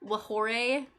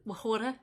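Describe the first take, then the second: First: "Whore" stretched to "wuh-HOR-ay"; mock accent. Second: "Whore" turned into "wuh-HO-da"; mock accent. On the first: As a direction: add a joking "-ay" ending to "Whore". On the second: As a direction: swap the r in "Whore" for a joking "-da". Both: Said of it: "The accent made Automod mad".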